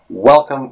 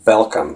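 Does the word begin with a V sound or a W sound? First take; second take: W sound; V sound. First: The word begins with a W sound. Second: The word begins with a V sound. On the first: The speaker calls it right. "Instead of welcome" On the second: The speaker calls it wrong. "instead of the W sound, we'd be saying V"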